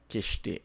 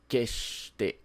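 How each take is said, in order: First: The word flows without a hold before 'sh'. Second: A brief hold comes before the 'sh' sound. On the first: The speaker calls it wrong. "não é keshite" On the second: The speaker calls it right. "Tem essa pausa"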